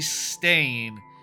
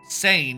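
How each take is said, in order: First: The name is said with a t sound. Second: The name is said without a t sound. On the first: The speaker calls it wrong. "I feel like I'm always mispronouncing that as Stain" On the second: The speaker calls it right. "there's actually no T in there"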